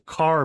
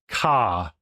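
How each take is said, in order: First: The final R is pronounced. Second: The final R is dropped, Aussie style.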